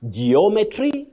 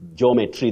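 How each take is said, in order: First: It uses the recommended pronunciation. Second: It uses the commonly heard pronunciation. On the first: The speaker calls it right. "So you say geometry" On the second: The speaker calls it wrong. "not geometry the way many people say"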